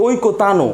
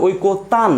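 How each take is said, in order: First: ঐকতানো said with a final vowel o after ন; ঐকতানো with the ending voiced as -নো, the wrong way; ঐকতানো ending on an open o sound; wrong pronunciation. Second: ঐকতান said slowly, ending closed on ন with no vowel; ঐকতান clipped at the final ন, hasanta ending; ঐকতান stopping dead on the ন; correct pronunciation. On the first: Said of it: "উচ্চারণ কখনোই ঐকতানো না". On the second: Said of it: "আমরা উচ্চারণ করি ঐকতান". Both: Shown as a demonstration.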